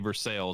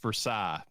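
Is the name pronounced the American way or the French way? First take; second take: American; French. First: It is pronounced the local American way. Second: It is pronounced the French way. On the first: This is the name of the town in Kentucky. "but we say Versailles" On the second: This is the name of the place in France. "in Paris, France, it's Versailles"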